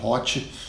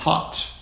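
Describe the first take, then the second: First: An extra vowel sound is added after the final t. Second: The word ends cleanly on the t sound. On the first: The speaker calls it wrong. "tenta botar um E, um I aí no final" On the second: The speaker calls it right. "Então, hot"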